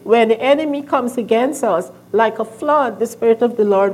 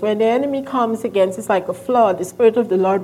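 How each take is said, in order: First: The pause comes before 'like a flood'. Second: The pause comes after 'like a flood'. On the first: The Spirit comes in like a flood. The speaker calls it right. "He said we should read it" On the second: The enemy comes in like a flood. The speaker calls it wrong. "I used to read it like this"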